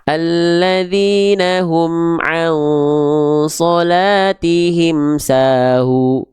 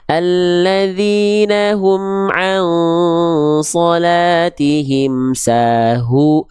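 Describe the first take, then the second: First: The h sound is faint, with little audible breath. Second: The h sound is clear, with audible breath. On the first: The speaker calls it wrong. "itu kan nggak jelas. Nafasnya mana? Suaranya mana?" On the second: The speaker calls it right. "Jelaskan nafas dan suaranya"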